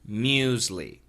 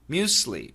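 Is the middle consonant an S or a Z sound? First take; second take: Z; S. First: The middle consonant is a Z sound. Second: The middle consonant is an S sound. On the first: "the pronunciation in America, in America is usually muesli" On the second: "some Americans do say muesli, muesli, with an S sound"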